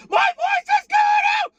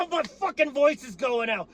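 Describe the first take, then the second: First: Cracking scream. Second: Higher, straining shout with the voice giving way; strained shout. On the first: Fan showing viewers his voice is breaking, cracking scream. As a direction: voice cracking into a very high squealing scream. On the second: Fan complaining to viewers his voice is going, strained shout. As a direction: push through a tired, yelled-out voice. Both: Real, not acted.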